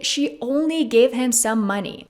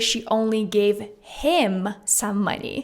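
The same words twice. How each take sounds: First: The stress falls on the word only. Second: The stress falls on the word him. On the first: She gave just a small amount, not a lot. "Emphasizing only" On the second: She gave money to him specifically, not others. "emphasizing the word him"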